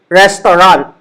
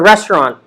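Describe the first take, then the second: First: Every vowel is given its full sound. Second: The unstressed vowels are shortened, almost dropped. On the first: "ang tawag natin sa kainan in Taglish is restaurant" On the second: "in the English pronunciation, it's a restaurant"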